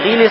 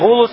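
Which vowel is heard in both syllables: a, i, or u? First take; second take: i; u. First: Both syllables have the vowel i. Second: Both syllables have the vowel u. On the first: "и не гилис" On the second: "а не гулус"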